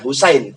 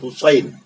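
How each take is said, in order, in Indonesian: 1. Bunyi s itu s yang ringan, biasa. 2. Bunyi s itu s yang berat, emfatik. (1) "Bukan Husain" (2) "Ha, sod, ya, nun. Husain"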